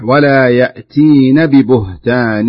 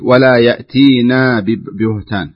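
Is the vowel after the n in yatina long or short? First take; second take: short; long. First: The vowel after the n is kept short. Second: The vowel after the n is stretched long. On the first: It keeps the verb in the feminine plural form. The speaker calls it right. "الصحيح" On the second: It turns the verb into a dual form. The speaker calls it wrong. "لا تضعي ألفا بعد النون، يعني لا تبالغي في الفتح حتى ينتقل إلى الألف"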